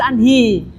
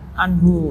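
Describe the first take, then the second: First: The word ends with an 'i' vowel. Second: The word ends with a 'u' vowel. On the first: The speaker calls it wrong. "tidak bisa kita baca anhi" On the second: The speaker calls it right. "tetap dibaca anhu karena dia mabni"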